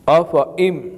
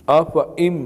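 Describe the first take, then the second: No difference in how they are said.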